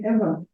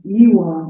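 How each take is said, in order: First: The middle consonant is pronounced as a V. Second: The middle consonant is pronounced as a W. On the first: The speaker calls it right. "it's written with W, okay? But you say Eva" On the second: The speaker calls it wrong. "sometimes in English people pronounce like this, like Ewa"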